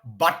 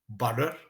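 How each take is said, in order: First: The middle T is a hard T. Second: The middle T sounds soft, like D. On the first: The speaker calls it wrong. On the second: The speaker calls it right.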